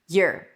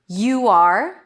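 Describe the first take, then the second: First: One reduced syllable, like 'yer'. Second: Two full words, both clearly pronounced.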